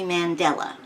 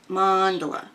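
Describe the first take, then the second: First: It sounds like the surname Mandela. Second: It sounds like the word mandala. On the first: The speaker calls it wrong. "Half of the time I say Mandela, as in Nelson Mandela" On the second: The speaker calls it right. "I should say it right"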